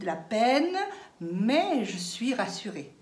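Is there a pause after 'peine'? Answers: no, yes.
yes. There is a clear pause after 'peine'. The speaker calls it right. "Vous dites"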